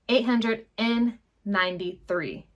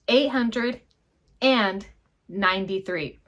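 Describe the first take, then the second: First: It is said fast with 'and' reduced to 'n'. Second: It is said slowly with a full 'and'.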